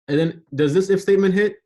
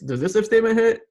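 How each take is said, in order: First: It is asked in a plain, neutral tone. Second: It is asked in a doubtful, skeptical tone.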